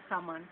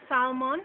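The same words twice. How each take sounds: First: "salmon" as sah-man; Jamaican pronunciation. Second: Said in the usual way. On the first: Shown as a demonstration. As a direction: say "salmon" the Jamaican way, open vowels. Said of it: "in Jamaica". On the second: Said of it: "calling the words and then giving".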